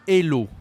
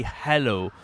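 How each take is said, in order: First: "hello" as "ello", loud; dropped h. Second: "hello" with a breathed h; English h. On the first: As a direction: say "hello" the French way without its h. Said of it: "they like to say". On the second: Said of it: "they don't say hello". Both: Shown as a demonstration.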